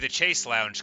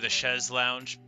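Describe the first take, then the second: First: Chaise is said with an English-style pronunciation. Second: Chaise is said with a French-style pronunciation.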